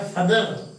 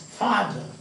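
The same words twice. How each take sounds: First: The stress is not on the first syllable. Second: The stress is on the first syllable. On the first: The speaker calls it wrong. "We don't say father" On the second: The speaker calls it right. "you have to have a first syllable stress"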